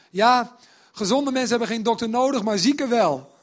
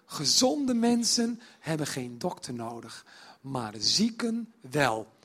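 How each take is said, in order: First: Louder, offhand, tossed off with "Ja"; blunt casual retort. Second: Slow and weighty, stressing zieken; slow solemn quote. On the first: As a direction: say it bluntly to the scoffers' faces. (luid en nonchalant, botweg gezegd) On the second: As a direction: lay each word down slowly, "zieken" falling. (langzaam en plechtig, nadruk op "zieken") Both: Shown as a demonstration. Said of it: "Moet je je voorstellen dat je Matthäus bent".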